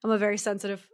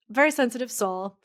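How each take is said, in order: First: Said in the usual way. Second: "very" lifted higher and louder; stress on very. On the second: Real, not acted. Telling a friend she feels deeply, stressing very. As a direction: lean hard on "very sensitive".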